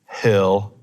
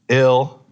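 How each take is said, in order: First: The word begins with an audible h sound. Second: The word begins with no h sound. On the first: "in American English, we have the letter H" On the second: "They don't pronounce the H"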